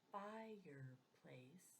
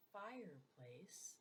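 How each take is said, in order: First: "fireplace" said slowly as fire-place, two clear beats; syllables drawn out. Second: Said in the usual way. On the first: Shown as a demonstration. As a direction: stretch "fireplace" so each syllable shows. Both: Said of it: "how many times you drop your chin".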